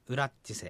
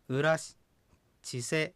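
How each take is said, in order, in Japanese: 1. 普通の速さで言われていて、音がつながっています。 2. ゆっくり、二つに区切って言われています。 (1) "普通の速さで発音するとこういうふうに発音されます" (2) "ゆっくり言えば"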